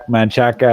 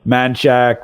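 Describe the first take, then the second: First: Manchaca with the final "a" sounded; Manchaca, closer to the Spanish, ending in "-ca"; fuller pronunciation. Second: Manchac with the final vowel dropped; Texan mispronunciation. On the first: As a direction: say Manchaca in three syllables. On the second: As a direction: say Manchac anglicized, ending on a hard "shack". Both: Shown as a demonstration. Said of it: "they mispronounce every Mexican thing".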